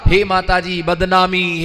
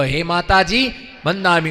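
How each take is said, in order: First: बदनामी said as bad-naami, the d and n swapped; imitating a man blurting बदनामी by mistake; wrong word. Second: बंदामी said with the n before the d, as ban-daami; correct greeting. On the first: Monk mimicking a devotee who garbles the greeting, बदनामी. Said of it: "वो बंदा जोर से बोल पड़ा". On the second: Shown as a demonstration. Monk teaching devotees the proper greeting, बंदामी said clearly. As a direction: say बंदामी carefully as ban-daa-mee. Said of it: "हे माता जी बंदामी।" बोलो".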